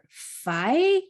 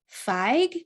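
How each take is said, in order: First: It is said with a vowel and no final consonant. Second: It is said with a short i and final g. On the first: "or fi" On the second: "It's pronounced fig"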